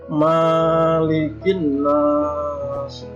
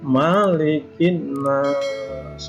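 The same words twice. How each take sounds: First: The vowel after the m is long. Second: The vowel after the m is short. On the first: The speaker calls it wrong. "tidak boleh" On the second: The speaker calls it right. "yang benar Malikin Nas, mimnya pendek"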